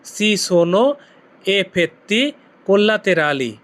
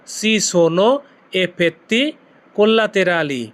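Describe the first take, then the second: First: "effetti collaterali" stretched out very slowly; very slow model of the whole Italian phrase; very slow demo. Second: "Si sono", then "effetti", then "collaterali", with short gaps between; word-group by word-group model of the Italian phrase; chunked demo. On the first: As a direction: spell out "Si sono effetti collaterali" slowly for learners. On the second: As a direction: break the phrase into three parts. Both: Shown as a demonstration. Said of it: "আপনি Italian ভাষায় কি বলবেন?".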